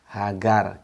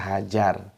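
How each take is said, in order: First: The middle consonant is a hard G sound. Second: The middle consonant is a J sound. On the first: This is the Hebrew form of the name. "Kalau dialek Ibraniun itu G" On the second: This is the form the speaker's community uses. "kalau kita J"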